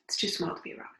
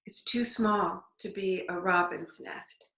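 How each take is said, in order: First: Softer whispered repeat. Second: Said in the usual way. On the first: Real, not acted. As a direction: drop to a whisper as you repeat it. Remark said twice, second whispered.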